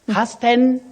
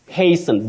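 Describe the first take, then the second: First: The T sound is pronounced in the word. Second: The T sound is silent in the word. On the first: The speaker calls it wrong. "You don't say hasten. Hasten, no. Don't pronounce that word the way it is spelled" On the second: The speaker calls it right. "The T hasten. is silent"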